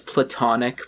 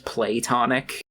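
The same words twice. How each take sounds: First: The first syllable is a short, weak 'pluh'. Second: The first syllable is a long 'play' sound.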